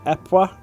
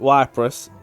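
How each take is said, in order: First: The name is said in a French way. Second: The name is said in an anglicized way. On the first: The speaker calls it right. "it's more accurately Epois in Belgian French" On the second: The speaker calls it wrong. "So I called it"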